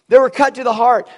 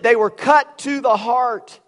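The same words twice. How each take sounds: First: Repeated louder, punching They; preacher driving the line in again. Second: Slow, weighty stress on cut; preacher dwelling on cut; slow emphasis. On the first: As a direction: hammer the repeat home. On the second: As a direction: lean hard on cut to the heart. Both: Shown as a demonstration.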